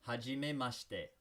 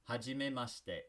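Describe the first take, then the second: The two takes are said the same way.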